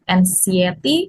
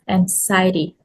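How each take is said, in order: First: The second syllable is not stressed. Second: The second syllable is stressed. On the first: The speaker calls it wrong. "mispronounced as anxiety" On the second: The speaker calls it right. "stress on the second syllable"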